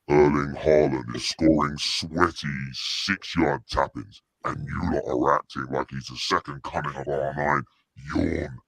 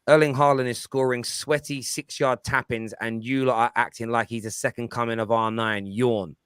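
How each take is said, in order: First: It is read in a put-on voice. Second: It is read in a normal voice.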